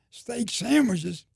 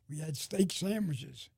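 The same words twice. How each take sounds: First: Drawn-out, high, loud disbelief; amazed echo. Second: Said in the usual way. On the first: Retold or imitated. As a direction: echo it slowly, louder, as if unbelievable. Amazed echo of the men's answer.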